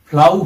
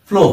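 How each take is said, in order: First: The vowel is pronounced like 'ow' in cow. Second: The vowel is pronounced like 'oh' in go. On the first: The speaker calls it wrong. "ফ্লাউ হয় না" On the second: The speaker calls it right. "ফ্লো হয়"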